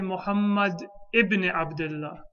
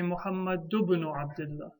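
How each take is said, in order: First: A glottal stop begins the word ibn. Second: Ibn links to Muhammad without a glottal stop. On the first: The speaker calls it wrong. "we don't say" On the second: The speaker calls it right. "We say"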